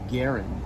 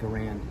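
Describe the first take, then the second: First: The name rhymes with Aaron. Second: The name ends with an 'and' sound. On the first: This is how the inventor said his name. "so I guess the proper pronunciation would be M one Garen" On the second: This is the popular way people say the rifle's name. "but I don't like that. I like Garand"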